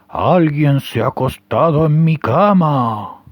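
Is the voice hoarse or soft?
hoarse. It is said in a hoarse papa bear voice.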